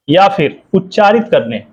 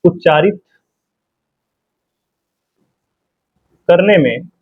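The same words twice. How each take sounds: First: Said in the usual way. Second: Words spaced out with long pauses for writing; slow dictation. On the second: Shown as a demonstration. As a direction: dictate slowly so students can write. (रुक-रुक कर लिखवाना) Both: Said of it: "इसमें बता दे रहे हैं आपको".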